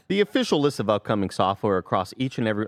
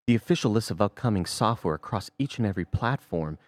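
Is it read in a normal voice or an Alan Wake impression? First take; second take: normal voice; Alan Wake. First: It is read in the speaker's normal voice. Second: It is read in an Alan Wake impression.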